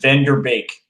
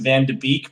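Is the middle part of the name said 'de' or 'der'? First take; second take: der; de. First: The middle part sounds like 'der', with r. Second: The middle part sounds like 'de', no r. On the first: This is the proper way to say it. The speaker calls it right. "the correct way to pronounce it is" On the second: This is how many people say it. The speaker calls it wrong. "a lot of people are going to pronounce it"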